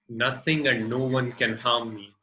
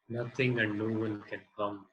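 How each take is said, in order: First: It is spoken loudly. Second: It is spoken quietly. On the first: It commands the full attention of the conscious mind. "So first loudly" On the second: It absorbs more deeply the meaning of the words. "then second time quietly"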